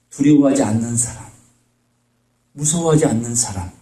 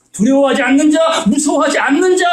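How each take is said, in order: First: Said in the usual way. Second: 두려워하지 않는 자 pitched higher with 않는 punched; emphatic repeat. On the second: Shown as a demonstration. Preacher pressing the point on his listeners, emphatic and raised. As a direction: drive 않는 home, raised. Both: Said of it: "repeated with contrast".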